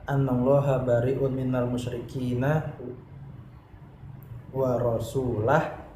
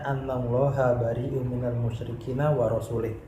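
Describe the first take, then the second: First: The final word ends with an 'ah' vowel. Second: The final word ends with an 'ih' vowel. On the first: God and his messenger both disown the idolaters. The speaker calls it right. "Yang benar adalah" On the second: God disowns the idolaters and also his messenger. The speaker calls it wrong. "si orang tadi jika membacanya"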